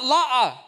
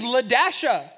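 First: The name has two syllables with no 'dash' sound. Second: The name has the syllable 'dash' in the middle. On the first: The speaker calls it wrong. "That's not La'a" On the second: The speaker calls it right. "You pronounce the dash. This name is Ladasha"

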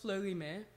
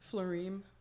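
First: The name is said with its French pronunciation. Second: The name is said in a simplified, English-like way. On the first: This is the true pronunciation of the name. The speaker calls it right. "It is pronounced Fleurime" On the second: This is the easier version usually given to people. The speaker calls it wrong. "I actually always tell people the wrong pronunciation because it's easier"

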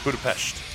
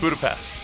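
First: It is said with an Eastern European pronunciation. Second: It is said with an everyday English pronunciation. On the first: "They say Budapest" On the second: "They don't say Budapest, like you or I would say"

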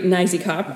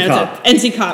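First: The first part is said as one word. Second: The first part is spelled out letter by letter. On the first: The speaker calls it right. "as we've learned to pronounce it" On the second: The speaker calls it wrong. "I don't like that one as much"

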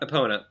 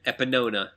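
First: The name is said without any added syllable. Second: The name is said with an added extra syllable. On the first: The speaker calls it right. "It's Epona" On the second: The speaker calls it wrong. "I add letters. I said Epinona"

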